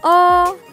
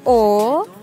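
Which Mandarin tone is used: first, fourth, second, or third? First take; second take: second; third. First: It is said with the rising second tone. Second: It is said with the dipping third tone. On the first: "Bentuk kedua" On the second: "Bentuk ketiga"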